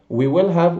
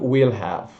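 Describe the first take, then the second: First: Every word is said in full. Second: Pronoun and will merge into one syllable.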